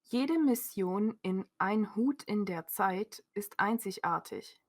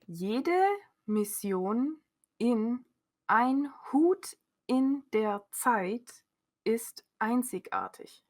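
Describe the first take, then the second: First: It is read at a fast pace. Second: It is read very slowly.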